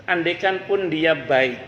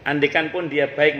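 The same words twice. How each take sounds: First: Slow, leaning on "pun"; slow and deliberate, pressing "pun"; stress on pun. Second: Repeated with the weight on "baik"; stress on baik. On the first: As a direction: draw out "andaikan pun" with weight on "pun". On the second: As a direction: land firmly on "baik" at the end. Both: Shown as a demonstration.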